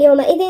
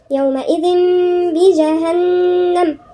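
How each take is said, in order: First: يومئذ ending on a plain "n" sound; wrong, with a clear n. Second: يومئذ بجهنم with a held "m" hum at the join; n turned to nasal m. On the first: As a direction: finish يومئذ on "-dhin", tongue closing for n. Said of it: "على النون، لا". ("يومئذ" بنون ظاهرة) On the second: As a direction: say "yawma'idhim bi-jahannam", lingering on the nasals. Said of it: "هننطقها ميم وبغنة كمان". ("يومئذ بجهنم" بقلب النون ميمًا مع الغنة) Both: Shown as a demonstration.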